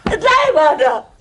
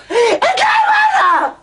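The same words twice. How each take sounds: First: Said in the usual way. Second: High, slow, shrieked order; furious shout. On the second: Acted. Wife screaming at Zeinab to get out, furious. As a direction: scream it at her, stretching the words.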